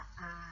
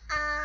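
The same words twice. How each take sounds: First: It is said with the third tone. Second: It is said with the first tone.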